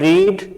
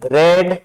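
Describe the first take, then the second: First: The vowel is a long 'ee' sound. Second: The vowel is a short 'eh' sound. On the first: It is the present form of the verb. "R E A D होता है, तो रीड" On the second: It is the past form of the verb. "Second और third form को हम sound से इसको रेड पढ़ेंगे"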